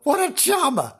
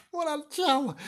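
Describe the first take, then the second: First: High mock-admiring sneer; a high sarcastic what a charmer. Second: High sarcastic echo, softer; high hushed sarcastic charmer. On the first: Sarcasm on a murderer. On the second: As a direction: repeat it as a soft high sneer. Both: Real, not acted.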